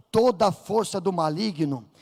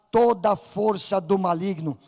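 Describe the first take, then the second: No difference in how they are said.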